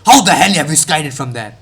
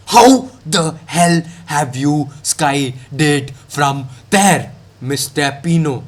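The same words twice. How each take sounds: First: Said in the usual way. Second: A very slow, drawn-out "How the hell have you skied it from there"; 1 drawn-out repeat. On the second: Shown as a demonstration. To Pino after his miss, slow, exaggerated disbelief. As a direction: stretch every word in mock disbelief.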